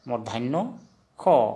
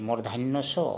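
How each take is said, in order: First: The last syllable starts with a kh sound. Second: The last syllable starts with an s sound. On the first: The speaker calls it right. "उच्चारण होगा खो" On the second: The speaker calls it wrong. "सो को उच्चारण हमेशा खो होता है"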